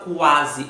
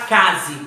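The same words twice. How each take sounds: First: "quase" with a clear kw glide at the start; U pronounced. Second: "case" for quase, plain k with no U glide; wrong pronunciation. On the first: Teacher correcting the error, "quase" with the U heard. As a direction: say "quase" sounding the U after the Q. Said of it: "Eu tenho o som do U". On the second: Teacher showing what one doesn't say, "case" without U. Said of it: "Você não fala case". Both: Shown as a demonstration.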